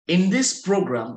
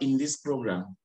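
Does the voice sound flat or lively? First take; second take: lively; flat. First: It is said brightly, with a lifted voice. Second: It is said flatly, with little energy. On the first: The speaker calls it right. "so you have to take your voice up" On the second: The speaker calls it wrong. "not in this program"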